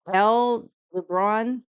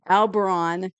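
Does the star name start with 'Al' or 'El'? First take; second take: El; Al. First: The name begins with an 'El' sound. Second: The name begins with an 'Al' sound. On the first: The speaker calls it wrong. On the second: The speaker calls it right.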